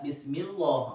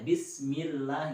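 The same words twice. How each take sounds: First: The 'llah' is thick, sounding like 'o'. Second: The 'llah' is thin, with a clear 'a'. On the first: The speaker calls it wrong. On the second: The speaker calls it right. "Jadi a ya"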